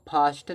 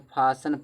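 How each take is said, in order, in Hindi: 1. बीच में t की ध्वनि बोली जाती है। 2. t की ध्वनि बिल्कुल नहीं बोली जाती। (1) "इसको देखो फास्टन नहीं पढ़ते" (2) "फासन पढ़ते हैं, तो फासन में टी साइलेंट होता है"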